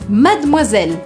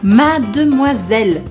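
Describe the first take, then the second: First: It is said quickly with syllables reduced. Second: It is said slowly with every syllable full.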